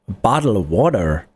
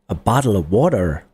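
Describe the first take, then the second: First: It is said in an American accent. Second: It is said in an American accent.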